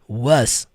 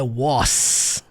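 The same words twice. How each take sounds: First: The word ends with a buzzing Z sound. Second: The word ends with a hissing S sound. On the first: The speaker calls it right. "som do Z" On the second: The speaker calls it wrong. "não é was, com som do S"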